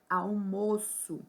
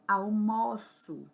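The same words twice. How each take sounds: First: The stressed O sounds closed. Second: The stressed O sounds open. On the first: It names a meal. "o O fechado, com o som fechado da sílaba mó" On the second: It means eating lunch. "o som do O, nesse exemplo aqui de baixo, ele é aberto"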